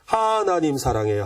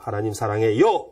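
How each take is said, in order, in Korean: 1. 첫 번째 음절을 강조해요. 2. 일곱 번째 음절을 강조해요.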